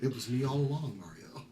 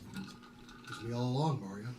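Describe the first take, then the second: First: It is said in a high-pitched voice. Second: It is said in a lower, normal voice.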